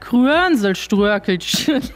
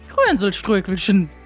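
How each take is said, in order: First: The word is said at a slower pace. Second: The word is said at a faster pace.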